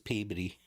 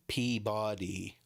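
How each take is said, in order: First: It is pronounced the local Massachusetts way. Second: It is pronounced the way an outsider reads it. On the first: This is how the locals say it. "to us it's Peabody" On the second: This is how people elsewhere say it. "you probably pronounce it Peabody because it's P E A B O D Y"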